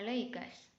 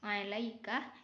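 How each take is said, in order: First: The word ends with an s sound. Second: The word ends with a k sound.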